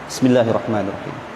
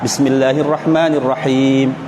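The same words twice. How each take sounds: First: It is said softly and quietly. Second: It is said aloud at normal loudness.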